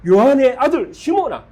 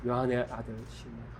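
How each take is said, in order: First: 높고 크게 꾸짖듯 부르기; 시몬아를 크게 외치며 떨어지는 억양; loud rebuking call. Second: 낮고 작게 다정히 부르기; 요한의를 힘주되 속삭이듯 작게; soft quiet call. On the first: 예수님의 질책하는 부름. (꾸짖으며 크게 부르는 목소리) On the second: 예수님의 조용한 부름. (제자를 조용히 부르는 다정한 목소리) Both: Acted.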